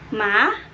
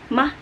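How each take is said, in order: First: The pitch rises like a question. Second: The pitch is short and low. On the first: "kayak misalkan kalian bertanya aja kepada seseorang" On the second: "lebih pendek dan biasanya lebih rendah"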